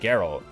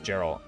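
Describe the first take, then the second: First: It begins with a hard G sound. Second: It begins with a soft G sound. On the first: The speaker calls it right. "Geralt with a hard G like game? Oh, it's actually Geralt" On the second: The speaker calls it wrong. "This whole time I thought it was Geralt"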